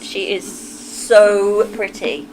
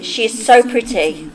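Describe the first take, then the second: First: "so" drawn out and weighted, whole line slow; slow, stressed. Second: Said in the usual way. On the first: Real, not acted. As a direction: lean into "so" slowly. Repeating the compliment with emphasis.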